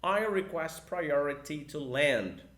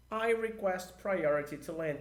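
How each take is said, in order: First: Very slow, louder repeat of the phrase; slower model repeat. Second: Slow English radio phrase; slow model sentence. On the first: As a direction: repeat it even slower for students to copy. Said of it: "Tudo no um, dois, três". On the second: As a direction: say it slowly as an example. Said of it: "Fica assim, ó". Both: Shown as a demonstration.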